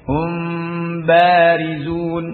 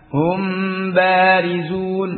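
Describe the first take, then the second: First: The m is closed lightly and softly. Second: The m is closed firmly and clearly. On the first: The speaker calls it right. "nempelnya khafif ya" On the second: The speaker calls it wrong. "Tidak seperti uh, hum ba hum barizun ya. Hum jelas ya"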